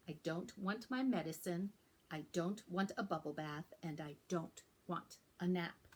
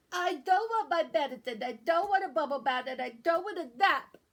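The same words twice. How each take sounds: First: Said in the usual way. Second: Loud stuffy-nosed complaint; a sick kid refusing everything; whiny loud protest. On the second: Acted. Sick child protesting loudly.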